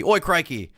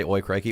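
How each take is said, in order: First: High, punched put-on British accent; mock British exclamation. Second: Said in the usual way. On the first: Streamer obliges a chat request, mock British exclamation. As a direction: exclaim it like a cartoon Brit. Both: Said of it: "can you say".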